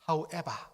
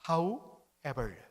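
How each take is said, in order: First: It is said in a British accent. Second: It is said in a plain, non-British accent.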